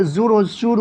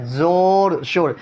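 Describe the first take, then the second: First: زور و شور mispronounced as zoor-o-shoor; wrongly pulled to oo. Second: زور، شور with an open o, never oo; open o, waw majhool. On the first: Teacher shows what over-pulling does, oo instead of o. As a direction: turn the o of زور و شور into a tight oo. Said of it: "کھینچیں تو زور و شور ہو جائے گا". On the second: Teacher gives waw majhool examples, open o sound. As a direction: round زور، شور to an o as in "more". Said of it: "جس واو کو کھینچ کا نہ پڑھا جائے". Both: Shown as a demonstration.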